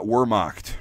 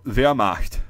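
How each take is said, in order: First: Wehrmacht as WUR-mokt, English W; hard R and W in Wehrmacht; mispronounced English W. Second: Wehrmacht as VEH-ah-mahkt, slowly; German V and R-less first syllable in Wehrmacht. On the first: Showing what it's not, Wehrmacht with an English W. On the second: Teacher giving the proper form, Wehrmacht slow with a V. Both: Shown as a demonstration. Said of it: "It's not Wehrmacht".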